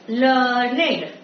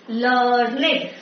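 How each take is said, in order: The two takes are said the same way.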